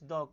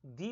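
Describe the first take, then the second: First: The word ends in a short 'uh' vowel. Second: The word ends in a long 'ee' vowel. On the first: "इस द को द भी बोलते हैं" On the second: "इस द को दी भी बोला जाता है"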